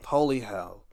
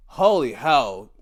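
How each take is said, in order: First: "holy hell" breathed out in a soft whisper after a sigh; exasperated whisper of "holy hell". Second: Said in the usual way. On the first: Real, not acted.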